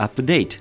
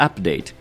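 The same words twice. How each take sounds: First: The stress is on the second syllable. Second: The stress is on the first syllable. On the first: It is used as a verb. "動詞は後ろにアクセント" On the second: It is used as a noun. "名詞は前にアクセント"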